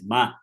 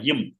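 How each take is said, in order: First: The syllable ends in a full vowel sound. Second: The syllable ends in a bare m sound. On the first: The speaker calls it right. "it is ma" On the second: The speaker calls it wrong. "reading it as half matra"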